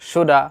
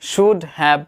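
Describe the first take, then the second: First: The words are merged into one reduced word. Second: Both words are said fully and separately.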